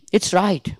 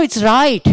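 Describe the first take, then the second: First: Said in the usual way. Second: "right" raised and punched; stress on right. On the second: Shown as a demonstration. Teacher showing students a stressed "right". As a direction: lift "right" in "it's right". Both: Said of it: "Every time".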